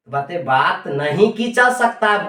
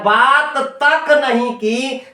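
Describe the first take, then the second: First: Said in the usual way. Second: तक punched, very slow and higher; stress on तक. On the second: Shown as a demonstration. Teacher contrasting the line without तक, slow stress on तक. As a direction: hit तक hard in बात तक नहीं की. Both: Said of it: "देखिए बल दिया जा रहा है".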